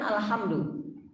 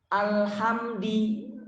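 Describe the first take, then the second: First: The word ends with a 'u' vowel. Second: The word ends with an 'i' vowel. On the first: This is the standard reading used in prayer. "asalnya kan Alhamdu" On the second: This is a variant reading not used in prayer. "Imam Hasan al-Basri membaca Alhamdi"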